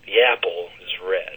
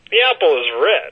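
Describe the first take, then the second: First: It is said in a slow, sensual tone. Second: It is said in a light, playful tone. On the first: "And a bit of sensuality to it" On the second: "I want to add a bit of playfulness"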